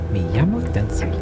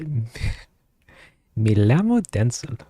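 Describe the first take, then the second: First: The double L sounds like an English Y. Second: The double L sounds like an English L. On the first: "A Y sound?" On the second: "I don't know if if if Lamos is, is pronounced the way I think I think it is"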